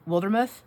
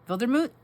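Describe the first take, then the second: First: The name is pronounced the usual English way. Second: The name is pronounced the German way. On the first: This is how most people say it. "Normally people say Wildermuth" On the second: This is how a German speaker said it. "this German person I met one time, they said it to me and they said Wildermuth"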